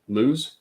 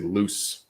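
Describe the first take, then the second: First: The word ends with a buzzing z sound. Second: The word ends with a hissing s sound. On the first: The speaker calls it right. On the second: The speaker calls it wrong.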